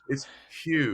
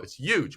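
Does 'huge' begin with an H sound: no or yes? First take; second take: yes; no. First: Huge starts with a breathy H sound. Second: Huge starts directly with a Y sound. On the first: "you're wasting a lot of oxygen with that part in the beginning" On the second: "Y O O J"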